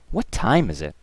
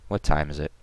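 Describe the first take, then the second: First: It is said with strong stress on 'time'. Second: It is said flatly with no word stressed. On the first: "my intonation throughout that sentence on the word time specifically" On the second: "this was just bland speaking"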